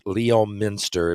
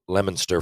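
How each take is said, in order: First: Every written letter of the name is sounded out. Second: The name is said the real, local way. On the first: The speaker calls it wrong. "Spelled Leominster if you if you were to pronounce it out" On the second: The speaker calls it right. "it's pronounced Leominster for real"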